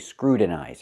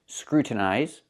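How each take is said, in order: First: The T is a quick flapped sound. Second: The T is a full, released T sound. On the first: The speaker calls it wrong. "you cannot say scrutinize. I cannot make the T a fast T" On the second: The speaker calls it right. "You can pronounce the T like a real T"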